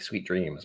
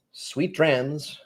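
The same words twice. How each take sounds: First: Said in the usual way. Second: "dreams" said with an open "a", like "drams", higher; altered sweet dreams. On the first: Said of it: "but it's not". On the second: Shown as a demonstration. Host's late-hour sign-off to a viewer, "dreams" punned into "drams". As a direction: swap the vowel in "dreams" for the one in "drams". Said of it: "It's like sweet dreams, but it's not".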